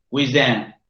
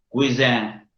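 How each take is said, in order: The two takes are said the same way.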